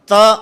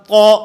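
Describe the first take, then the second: First: The syllable is pronounced light and thin. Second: The syllable is pronounced heavy and full. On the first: The speaker calls it wrong. "मोटा नहीं बल्कि बारीक पढ़ता है" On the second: The speaker calls it right. "ये तो ठीक है"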